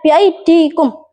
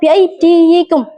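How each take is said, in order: First: It is said without a 'yi' syllable before -kum. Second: It is said with a 'yi' syllable before -kum. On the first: This is how the word is actually read. "maka dibaca bi aidikum" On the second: This is the full underlying form of the word. "seharusnya dibaca bi aydiyikum"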